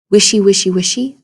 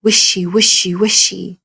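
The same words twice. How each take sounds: First: Louder, punched wishy, wishy, wishy; rustling grass sound. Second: Snake in grass sound. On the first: Teacher rereading the snake's grass sound, swishing. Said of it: "reread that again and think about the sound". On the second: Teacher showing how Snake moves in grass, swishing. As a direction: let "wishy" glide like a snake in grass. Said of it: "the sound that Snake makes". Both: Shown as a demonstration.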